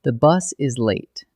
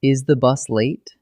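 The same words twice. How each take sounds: First: Slow, falling statement tune; slow declarative reading with a final fall; plain statement. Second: Slow question tune on late; slow interrogative reading of the same words; asked as a question. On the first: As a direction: state it slowly as a flat fact, falling at the end. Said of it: "Look at almost the same words two ways". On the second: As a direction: read it slowly as a real question. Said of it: "Now flip it". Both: Shown as a demonstration.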